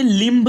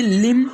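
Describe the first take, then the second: First: लिम्ब said as "limb" with B sounded; wrong pronunciation with B. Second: लिम said as "lim", ending on M; silent B. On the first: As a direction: close लिम्ब on an audible B. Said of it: "लिम्ब नहीं पढ़ना है". (लिम्ब के अंत में 'ब' बोलकर) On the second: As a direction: close लिम on M with no B. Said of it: "बल्कि". (लिम को 'म' पर खत्म करें, 'ब' नहीं) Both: Shown as a demonstration.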